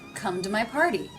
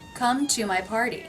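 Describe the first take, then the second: First: The T in 'to' is a soft flap. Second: The T in 'to' is a full T. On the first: The speaker calls it right. "Here I'm pronouncing the T as a flap" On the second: The speaker calls it wrong. "Much smoother than"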